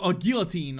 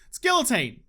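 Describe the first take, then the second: First: "guillotine" said the French way, L's silent; offhand French-style "guillotine", a y-glide for the L's; French-style pronunciation. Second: Guillotine in an Australian twang, L's sounded; defiantly Australian "guillotine" with a spoken L. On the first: Gamer concedes the other way, French-style "guillotine". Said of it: "I'm not French". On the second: Gamer answering critics of his guillotine, sweet Australian twang. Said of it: "say it with my sweet Australian twang". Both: Shown as a demonstration.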